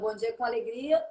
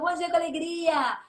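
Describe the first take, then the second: First: The greeting sounds flat and joyless. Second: The greeting sounds cheerful and lively.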